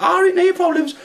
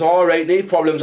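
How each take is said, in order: First: Very high mock girl voice; imitating Scruffy Lisa. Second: Said in the usual way. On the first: Passenger answering the driver in a very high mock voice. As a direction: squeak it back at him. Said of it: "she's like". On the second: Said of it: "I says".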